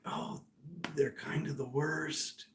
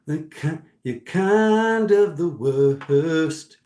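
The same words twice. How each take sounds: First: Whisper. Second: Louder and higher, each word dragged out slowly; drawn-out loud declaration; loud slow emphasis. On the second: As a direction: lean hard on the verdict, slowly. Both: Retold or imitated. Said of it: "Spirit's like".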